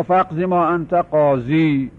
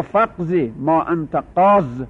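First: Slow recitation, keeping the final ī of «قاضی»; وقف با سکون یا. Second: Slow recitation, stopping short of the ī in «قاض»; وقف با حذف یا. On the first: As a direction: end «قاضی» on a long, held ī. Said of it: "با وجود یا و سکون یا". («قاضی» را با یای ساکن و کشیده وقف کن) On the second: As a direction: end «قاض» on the bare consonant, no final ī. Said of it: "با حذف لام الفعل وقف کردن". («قاض» را بدون «ی» و ساکن تمام کن) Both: Shown as a demonstration.

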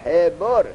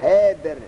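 First: حبر as "he-bor", an o after the b; damma on ba. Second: حبر as "hebr", no o after the b; no damma on ba. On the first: Teacher showing students the damma form, حبر said "he-bor". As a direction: say حبر in two syllables, "he-bor". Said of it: "اگر ضمه را را به با ندهیم". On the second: Teacher showing the pause form, حبر said "hebr" with silent-vowel ba. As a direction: run b straight into r at the end of حبر. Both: Shown as a demonstration.

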